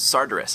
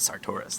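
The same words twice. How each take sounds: First: The stress is on the first syllable. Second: The stress is on the second syllable. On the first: The speaker calls it wrong. "My first guess was Sartoris, and I was like, no, that's probably the wrong inflection there" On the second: The speaker calls it right. "I'm probably supposed to stress the second syllable"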